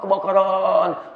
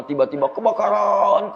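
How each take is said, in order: First: Kebakaran stretched very slowly; drawn-out kebakaran. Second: Said in the usual way. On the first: Shown as a demonstration. Preacher stretching kebakaran to make the fire vivid. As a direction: draw out every syllable of kebakaran.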